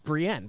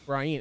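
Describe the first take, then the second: First: The name is said as Brienne. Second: The name is said like the name Brian. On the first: The speaker calls it right. "it's Brienne" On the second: The speaker calls it wrong. "he says Brian, and it drives people nuts"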